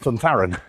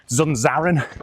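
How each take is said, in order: First: The name is said with th sounds. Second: The name is said with z sounds. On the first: The speaker calls it right. "it's a T H because it's Spanish" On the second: The speaker calls it wrong. "you probably heard it pronounced as at the weekend"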